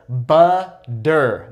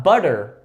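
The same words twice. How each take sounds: First: "Butter" split in two slow beats with a hard D; exaggerated D sound. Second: Said in the usual way. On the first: Shown as a demonstration. Teacher showing the D sound, exaggerated D in "Butter". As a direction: say "Butter" as buh, DER, with a firm D. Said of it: "exaggerate with that D sound". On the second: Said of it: "Not butter".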